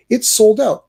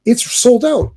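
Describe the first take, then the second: First: "sold" punched high again, fed up; stress on sold. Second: "sold" dito mais alto e agudo, indignado; stress on sold. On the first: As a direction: hit "sold" with disbelief. Repeats the sold out complaint. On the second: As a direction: lean hard on "sold", exasperated. Complaining tickets sold out. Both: Real, not acted.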